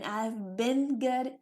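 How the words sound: It is said in an American accent. "is American"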